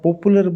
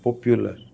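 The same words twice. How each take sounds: First: The second syllable has no y sound before u. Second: The second syllable has a y sound before u. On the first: The speaker calls it wrong. "अगर आप पॉपुलर बोलते हो ना तो वो गलत है" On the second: The speaker calls it right. "पॉपुलर होता है"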